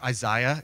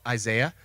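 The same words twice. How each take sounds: First: The name is said in a fancy-sounding way. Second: The name is said in an everyday way.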